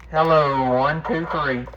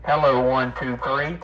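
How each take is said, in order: Both takes have the same delivery.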